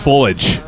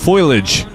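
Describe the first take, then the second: First: The first syllable sounds like foe. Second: The first syllable sounds like foil. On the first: The speaker calls it right. "no, it's just foliage" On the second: The speaker calls it wrong. "I added an extra I ... isn't it F O I L A G E?"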